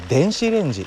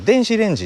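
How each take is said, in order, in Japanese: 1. 最初は低くて、上がります。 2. 最初は高くて、下がります。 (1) "標準語は電子レンジと上に上がる。" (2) "関西語圏の人たちは電子レンジって言うんですよね。関西弁は上から下がってくる"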